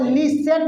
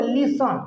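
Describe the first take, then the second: First: लिसन with a stretched, clear "sen" ending; wrong "sen" ending. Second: लिसन as "LIS-un", short neutral second vowel; correct reduced ending. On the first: Teacher shows what not to say, "sen" ending. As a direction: say लिसन as "li-SENN", full E vowel. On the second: Teacher models the right word for pupils, "sun" ending. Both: Shown as a demonstration. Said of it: "नहीं बोलोगे लिसन".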